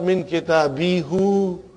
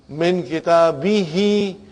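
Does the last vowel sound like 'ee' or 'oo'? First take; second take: oo; ee. First: The final syllable ends in an 'oo' vowel. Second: The final syllable ends in an 'ee' vowel. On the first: The speaker calls it wrong. "not min kitabihu. We don't say that" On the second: The speaker calls it right. "because there is a kasra here, who will become he"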